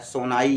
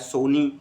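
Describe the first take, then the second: First: The word ends with a 'nai' sound. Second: The word ends with a 'nee' sound. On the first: "सोनाई या सोनी आप ऐसे बोल सकते हैं" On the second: "सोनाई या सोनी आप ऐसे बोल सकते हैं"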